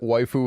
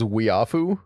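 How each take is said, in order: First: The first syllable sounds like 'why'. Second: The first syllable sounds like 'wee'. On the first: The speaker calls it right. "I never realized that waifu was pronounced that way" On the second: The speaker calls it wrong. "I thought it was weafu for the longest time"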